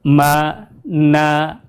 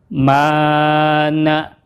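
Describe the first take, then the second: First: Both vowels are short and clipped. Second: The first vowel is held long. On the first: "Pendek semua ya, tidak ada yang panjang" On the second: "Huruf yang pertamanya kita baca panjang dua harokat"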